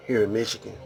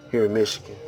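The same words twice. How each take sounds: The two takes are said the same way.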